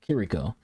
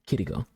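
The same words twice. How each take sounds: First: The R is said like an English R. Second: The R is said like a soft D. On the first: "a lot of people just call her Kiriko" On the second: "He called her Kiriko. So he's pronouncing the R in the name with ... the same kind of pronunciation that they would have in Japan"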